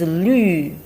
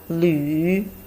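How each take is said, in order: First: The syllable is said with the fourth tone. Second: The syllable is said with the third tone. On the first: It means green. "The last one" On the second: It means travel. "The third tone"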